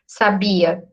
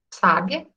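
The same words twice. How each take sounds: First: "Sabia" stressed on the BI; weight on the middle "bi" of "Sabia"; stress on middle syllable. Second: "sábia" stressed on the opening SÁ; weight on the first syllable of "sábia". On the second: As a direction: say "sábia" as SÁ-bia. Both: Shown as a demonstration. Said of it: "De onde tá a sílaba tônica".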